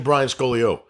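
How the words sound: The name is said firmly and confidently. The speaker is sure of the name. The speaker calls it right. "just say it with conviction"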